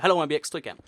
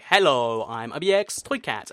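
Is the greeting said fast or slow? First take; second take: fast; slow. First: It is said quickly, words running together. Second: It is said slowly and carefully. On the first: The speaker calls it wrong. "I just sped through so many of the words" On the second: The speaker calls it right. "I had to really slow down and say"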